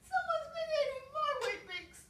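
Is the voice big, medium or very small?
very small. It is said in a very small voice.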